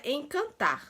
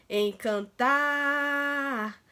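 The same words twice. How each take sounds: First: Said in the usual way. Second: "encantar" with the final "tar" dragged out very long; stretched stressed syllable. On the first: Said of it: "Se a gente torcer pela palavra". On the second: Shown as a demonstration. Teacher showing pupils how to twist the word, "encantar" with "tar" drawn out. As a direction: hold the last vowel of "encantar" in a long, steady stretch. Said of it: "a sílaba que se arrastou mais".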